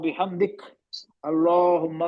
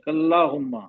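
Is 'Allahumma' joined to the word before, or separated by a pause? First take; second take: pause; joined. First: A pause separates the two words. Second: The final syllable runs straight into 'llahumma'. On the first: The reader stops before starting the next phrase. "इससे अच्छा आप रुक जाएं" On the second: The reader continues without stopping. "Continue करेंगे तो मिलाना पड़ेगा, का को ला में मिलाना पड़ेगा"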